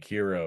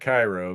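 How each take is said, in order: First: The first syllable sounds like 'kee'. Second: The first syllable sounds like 'kai'. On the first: This is another possible way to say the name. "but it could be Kiro" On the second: This is how the speaker says the name. "I pronounce it Cairo"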